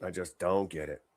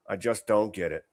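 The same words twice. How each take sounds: First: Softer, lower, to yourself; quieter, baffled. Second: Said in the usual way. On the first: Real, not acted. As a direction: mutter it in disbelief.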